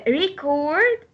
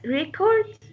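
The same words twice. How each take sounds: First: "record" as a verb, weight on CORD; stress on second syllable. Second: "record" as a noun, weight on REC; stress on first syllable. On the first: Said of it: "When we stress the second syllable". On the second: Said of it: "stress will go on the first syllable". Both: Shown as a demonstration.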